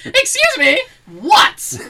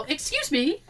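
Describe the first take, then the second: First: High, loud mock-indignant challenge; hammed-up rude local, loud and high; mock outrage. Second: Light, softer polite query; polite approach. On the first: Joking local snapping at approaching tourists, mock outrage. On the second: Retold or imitated. Couple approaching a local on the street, polite. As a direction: approach a stranger gently.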